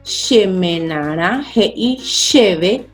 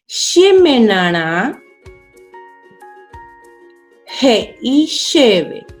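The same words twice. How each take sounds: First: It is read at normal speed. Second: It is read slowly, word by word.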